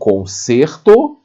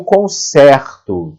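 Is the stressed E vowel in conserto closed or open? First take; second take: closed; open. First: The stressed E vowel has a closed sound. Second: The stressed E vowel has an open sound. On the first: It is the noun meaning a repair. "timbre fechado" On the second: It is the verb form meaning I repair. "timbre aberto"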